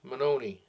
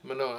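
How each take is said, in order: First: The name ends with an extra 'ee' vowel. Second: The name ends without an extra vowel. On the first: The speaker calls it wrong. "Is that the way we say it" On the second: The speaker calls it right. "I think it's just Manone"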